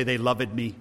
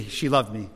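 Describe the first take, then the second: First: Loved said as LOV-ed, two syllables; old-fashioned two-syllable loved. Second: Loved said as one clipped syllable, LOVD; everyday one-syllable loved. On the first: Preacher mocking an outdated way to say loved. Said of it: "you don't say". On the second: Preacher showing how people say loved today. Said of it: "you say". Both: Shown as a demonstration.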